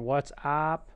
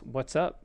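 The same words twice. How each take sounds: First: The vowel in up is a full vowel. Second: The vowel in up is a relaxed uh. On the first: The speaker calls it wrong. "or "what's up."" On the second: The speaker calls it right. "It's "what's up." It has that same sound"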